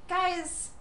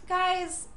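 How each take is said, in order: Both takes have the same delivery.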